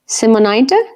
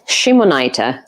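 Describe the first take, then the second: First: The name begins with a plain S sound. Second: The name begins with an SH sound. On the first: The speaker calls it wrong. "Did I say it wrong" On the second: The speaker calls it right. "S H sound in the beginning"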